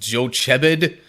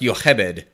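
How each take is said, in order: First: The name is read as English spelling suggests. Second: The name is said with its Hebrew pronunciation. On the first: This is how the spelling looks to an English reader. The speaker calls it wrong. "In the English spelling, that looks like it would be, like" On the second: This is the original Hebrew pronunciation. The speaker calls it right. "It's pronounced Yochebed"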